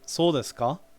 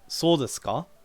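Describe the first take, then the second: First: The pitch rises at the end. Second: The pitch rises at the end.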